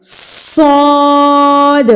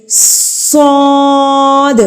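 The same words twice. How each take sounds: First: صاد begun with a clear s hiss, held long; drawn whistling صاد; whistling letter. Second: صاد with a hissing s sound first, drawn out; long hissed صاد; whistling letter. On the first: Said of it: "پہلے س کی sound آئے گی". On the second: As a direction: let صاد whistle before the vowel. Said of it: "سیٹی کی آواز پیدا ہوتی ہے". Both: Shown as a demonstration.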